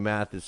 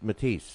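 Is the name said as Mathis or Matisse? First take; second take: Mathis; Matisse. First: The name is said as Mathis. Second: The name is said as Matisse. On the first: The speaker calls it wrong. "I kept saying Mathis" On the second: The speaker calls it right. "they said no, it's it's Matisse"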